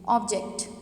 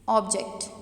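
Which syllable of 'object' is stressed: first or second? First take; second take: first; first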